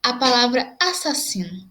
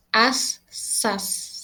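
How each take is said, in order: First: Said in the usual way. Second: "Assassino" slowly split as as-sas-si-no; teacher sounding out "Assassino" slowly for students; slow syllables. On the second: Shown as a demonstration. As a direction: draw out "Assassino" beat by beat.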